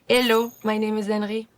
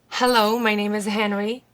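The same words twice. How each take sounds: First: The H sounds are left silent. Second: The H sounds are clearly pronounced.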